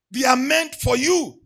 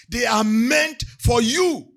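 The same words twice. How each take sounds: First: "you" pressed hard in a loud preaching cry; loud emphatic repeat. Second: They are meant for "you", slow and weighty; slow emphatic repeat. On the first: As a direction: punch "you" loudly at the congregation. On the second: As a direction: lean slowly on "you". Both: Shown as a demonstration. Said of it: "That's the emphasis this morning".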